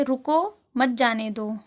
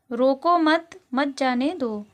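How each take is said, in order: First: रुको with a lifted end, brief stop, then मत जाने दो together; pause after रुको. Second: रोको मत grouped together, brief stop, then the rest; pause after first मत. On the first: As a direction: break after रुको, then run मत जाने दो as one phrase. (रुको के बाद अल्प विराम) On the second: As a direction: hold the break until after रोको मत. (रोको मत के बाद अल्प विराम) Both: Shown as a demonstration. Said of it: "थोड़ा सा जब रुकना होता है".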